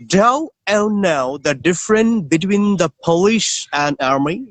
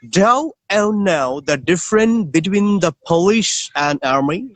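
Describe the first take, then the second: First: It is spoken in a British accent. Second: The same.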